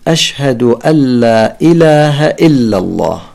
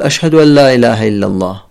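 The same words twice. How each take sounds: First: Every glottal stop is pronounced clearly and distinctly. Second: Only the first glottal stop is clear; others softened. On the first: The speaker calls it right. "يجب أن نأتي بنبرة الهمزة" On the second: The speaker calls it wrong. "يلفظ الهمزة الأولى ويسهل الهمزات التالية"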